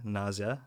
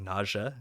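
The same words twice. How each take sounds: First: "nausea" said as NAW-zee-uh. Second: "nausea" said as NAW-zhuh. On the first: Host testing how to say nausea, z-ee sound in "nausea". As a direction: say "nausea" with a z, three syllables. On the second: Host testing how to say nausea, zh sound in "nausea". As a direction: say "nausea" with a soft zh, two syllables. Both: Shown as a demonstration. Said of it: "That sounded weird".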